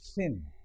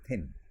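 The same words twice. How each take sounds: First: The first sound is a fricative with friction. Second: The first sound is a stop without friction. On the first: "The tongue will be between the teeth and there will be some amount of friction" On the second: "all of us say thin. If you try to say thin, your tongue will be behind your teeth"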